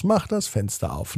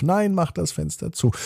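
First: Softer nagging demand; one side of a sibling argument; bickering child. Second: Higher-pitched contradicting demand; higher, contrary sibling reply; bickering child's retort. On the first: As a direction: demand it in a hushed squabble. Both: A narrator's reading. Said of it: "die Diskussion geht wieder los".

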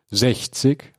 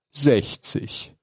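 First: "Sechzig?" asked back in disbelief, rising at the end; incredulous repeat. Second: Said in the usual way. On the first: Acted. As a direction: echo "Sechzig?" as a doubtful question. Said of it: "wiederholte Spider". ("Sechzig?" ungläubig fragend wiederholt) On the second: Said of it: "Sechzig?“, wiederholte Spider".

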